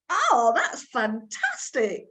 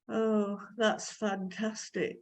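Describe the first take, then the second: First: It is said with exaggerated, lively expression. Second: It is said flatly, sounding uninterested. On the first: The speaker really thinks it is good. The speaker calls it right. "can we have the expression" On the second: The speaker does not really think it is good. The speaker calls it wrong. "it doesn't sound to me like you think it's very good"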